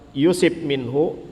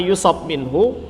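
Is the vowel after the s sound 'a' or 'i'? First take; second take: i; a. First: The vowel after the s is i. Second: The vowel after the s is a. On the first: God himself decrees a trial for him. "ketika kita baca man yuridillahu bihi khairan yusib minhu" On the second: He is afflicted by God or by others. "Adapun kalau dibaca yusab"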